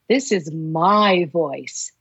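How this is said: The word 'my' carries the stress.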